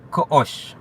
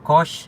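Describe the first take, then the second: First: The vowel is cut off by a glottal catch. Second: The vowel flows smoothly with no catch. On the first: The speaker calls it right. "sería Koosh" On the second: The speaker calls it wrong. "no lo dices como Kosh"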